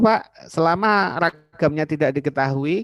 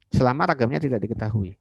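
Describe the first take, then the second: First: Voiced as a student, higher, louder and slow; mock student's question to the lecturer; student asking. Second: Said in the usual way. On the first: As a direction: ask it like an eager student raising a doubt.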